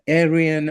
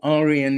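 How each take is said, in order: First: The word is said with a non-Indian pronunciation. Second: The word is said with an Indian pronunciation.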